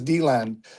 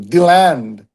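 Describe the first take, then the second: First: The stress is on the first syllable. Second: The stress is on the second syllable. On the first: "sometimes heard as D-land" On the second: "The common local pronunciation focuses on the land"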